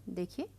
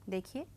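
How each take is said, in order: Both takes have the same delivery.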